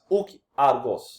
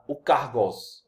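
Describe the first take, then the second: First: The two words are said separately. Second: The two words run together as one.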